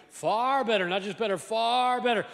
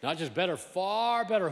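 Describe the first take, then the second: First: Far better shouted, far stressed high and loud; stress on far, louder. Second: Far better with far punched higher; stress on far. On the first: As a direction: build up and hit far. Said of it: "repeats contrast louder". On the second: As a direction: lean hard on far in far better. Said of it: "contrast not just better, far better". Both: Acted.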